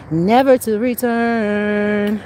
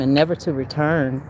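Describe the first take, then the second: First: Drawn out very slowly, every word stretched; slow solemn proclamation. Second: Said in the usual way. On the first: Real, not acted. To the demons, sealing their fate: slow drawn-out proclamation. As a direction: intone it like a final decree, slowly.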